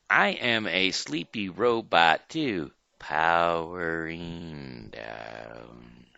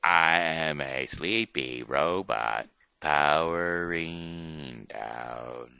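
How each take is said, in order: First: Stretching out to a very slow stop; robot powering down. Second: Slowing and dropping away into silence; robot powering down. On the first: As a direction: run down like a drained battery. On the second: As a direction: wind down like a dying robot. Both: Shown as a demonstration. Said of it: "We will show you first".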